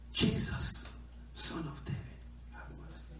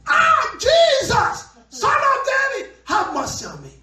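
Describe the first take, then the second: First: Whispered, hushed plea for mercy; hushed desperate prayer; soft plea. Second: High, loud desperate cry; shouting. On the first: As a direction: breathe it out softly like a private prayer. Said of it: "trying to pray softly before". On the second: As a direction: yell it like a loudspeaker. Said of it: "He became a loudspeaker". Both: Acted.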